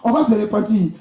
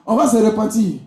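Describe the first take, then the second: No difference in how they are said.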